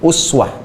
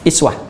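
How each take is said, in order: First: The word begins with a 'u' vowel. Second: The word begins with an 'i' vowel. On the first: This is the reading commonly recited. "itu pakai dhammah, u" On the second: This is the reading of a different transmission. "harakatnya kasrah"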